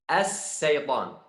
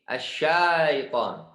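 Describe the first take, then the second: First: It uses a plain 's' sound, lengthened. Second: It uses a short 'sh' sound. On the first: The speaker calls it wrong. "As-sa diganti huruf shin ke huruf sin dan juga dipakai panjang" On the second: The speaker calls it right. "Harus asyaitan"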